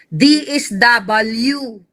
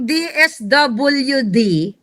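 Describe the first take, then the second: First: The letter S is said as 'is'. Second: The letter S is said as 'es'. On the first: The speaker calls it wrong. "hindi D is W" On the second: The speaker calls it right. "Kapag sinabi mong D S W D"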